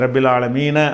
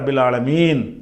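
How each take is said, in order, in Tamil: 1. கடைசி சொல் குறில் உயிரில் முடிகிறது. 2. கடைசி சொல் வெறும் மெய்யெழுத்தில் முடிகிறது. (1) "அப்படி இருந்தால்" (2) "மூச்சு விட்டோம் என்று சொன்னால் எப்படி படிக்கணும்"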